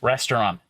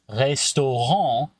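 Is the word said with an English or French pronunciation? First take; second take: English; French. First: It is said with an English pronunciation. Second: It is said with a French pronunciation. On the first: "in English" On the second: "now suddenly I have that back and forth in my mouth"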